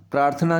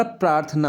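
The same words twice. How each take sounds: First: प्रार्थना ending in retroflex ṇaa; wrong retroflex n. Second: प्रार्थना ending in plain dental naa; correct dental n. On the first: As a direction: curl the tongue back for the last n of प्रार्थना. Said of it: "नहीं होता". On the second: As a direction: keep the tongue forward for the n of प्रार्थना. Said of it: "होता है बच्चों". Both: Shown as a demonstration.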